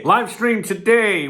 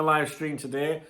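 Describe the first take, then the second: First: Loud, slow, punchy announcement; announcing. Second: Said in the usual way. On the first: Shown as a demonstration. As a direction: announce it with a bang. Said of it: "We'll be hosting a live stream today". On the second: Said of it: "Okay, live stream today".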